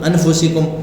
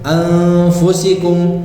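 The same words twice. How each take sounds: First: The n is pronounced fully and clearly. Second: The n is hidden as a nasal sound. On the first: The speaker calls it wrong. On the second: The speaker calls it right.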